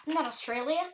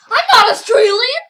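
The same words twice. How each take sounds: First: Said in the usual way. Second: Loud, high-pitched protest; high, emphatic yelled insistence; insistent shout. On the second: Pretend. Louder, insistent repeat of denial.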